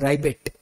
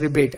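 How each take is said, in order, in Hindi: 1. पहला अक्षर 'rye' जैसा सुनाई देता है। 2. पहला अक्षर 'ree' जैसा सुनाई देता है। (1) "आई pronounce it as राइबेट" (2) "I don't pronounce it as रिबेट"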